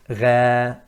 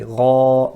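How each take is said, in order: First: Ra said thin and light; the wrong flat Ra. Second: Ra full and thick, rising; Ra with a raised, heavy sound; loud, heavy Ra. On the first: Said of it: "not Ra". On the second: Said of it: "we say Ra". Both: Shown as a demonstration.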